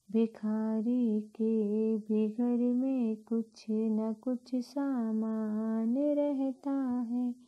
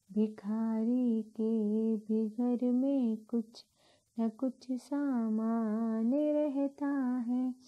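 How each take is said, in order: Both takes have the same delivery.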